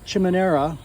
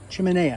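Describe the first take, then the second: First: An R sound is added within the word. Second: The word is said without any R sound. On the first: The speaker calls it wrong. "I keep saying it wrong" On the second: The speaker calls it right. "no R"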